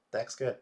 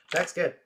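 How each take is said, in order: First: Louder, but settling down; calmer repeat. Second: High, loud cheer; excited shout. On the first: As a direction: say it again, calming down. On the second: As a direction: shout it out in triumph. Winning, shouting praise. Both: Real, not acted.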